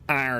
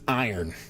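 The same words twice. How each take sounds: First: The word is said in a Pittsburgh accent. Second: The word is said in a standard accent.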